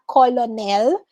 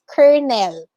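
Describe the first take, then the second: First: Colonel said as "ko-lo-nel"; wrong pronunciation demo. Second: Colonel said as "ker-nel"; correct pronunciation demo. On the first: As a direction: say colonel in three syllables, as spelt. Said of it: "it's not colonel". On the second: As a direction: say colonel in two syllables, with an r. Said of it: "it's colonel". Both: Shown as a demonstration.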